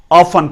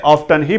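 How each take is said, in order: First: Often with silent t, "OFF-un"; British pronunciation. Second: Often with the t sounded, "OFF-tun"; American pronunciation. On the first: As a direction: say often as "off-fun". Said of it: "often पढ़ा जाता है". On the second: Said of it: "American इसे often ही पढ़ते हैं". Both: Shown as a demonstration.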